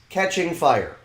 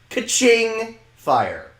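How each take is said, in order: First: Catching is pronounced the ordinary way. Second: Catching sounds like a cash register's ka-ching.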